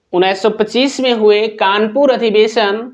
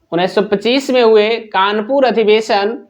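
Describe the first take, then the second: Both takes have the same delivery.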